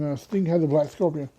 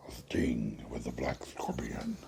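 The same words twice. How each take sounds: First: Said in the usual way. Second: Much lower, slow eerie whisper; slow deep villain whisper. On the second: Shown as a demonstration. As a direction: breathe it like a sinister masked villain. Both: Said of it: "I did that voice".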